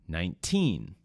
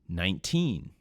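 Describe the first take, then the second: Both takes have the same delivery.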